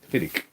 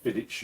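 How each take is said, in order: First: The word ends in a hard 'k' sound. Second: The word ends in a soft 'ch' sound. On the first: The speaker calls it right. "you pronounce it Fig Fiddick" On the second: The speaker calls it wrong. "You don't pronounce it Fiddich"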